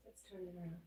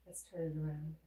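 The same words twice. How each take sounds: First: Hushed, almost under the breath; much softer repeat. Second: Said in the usual way. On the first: Shown as a demonstration. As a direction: drop to a near murmur.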